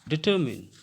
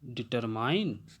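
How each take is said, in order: First: The last syllable sounds like 'min'. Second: The last syllable sounds like 'mine'. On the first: The speaker calls it right. "इसको जो हम लोग पढ़ेंगे डिटरमिन" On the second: The speaker calls it wrong. "ये गलत है"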